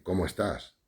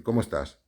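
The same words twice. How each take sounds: First: "cómo estás" as an appreciative exclamation, not a question; admiring exclamation. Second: "cómo estás" with question intonation, not exclaimed; genuine question. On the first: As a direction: exclaim "cómo estás" as a compliment on someone's looks. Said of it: "Porque estás bueno, porque estás de buen ver". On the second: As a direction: ask "cómo estás" as a plain inquiry after health. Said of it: "De salud o de esto". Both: Shown as a demonstration.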